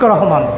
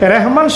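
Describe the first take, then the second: First: The first vowel is an a sound. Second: The first vowel is an e sound. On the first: The speaker calls it right. "হবে Shafiq রহমান" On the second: The speaker calls it wrong. "রেহমান শব্দটা অশুদ্ধ"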